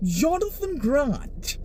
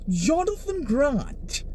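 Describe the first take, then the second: First: It is said in a posh uptown accent. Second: The same.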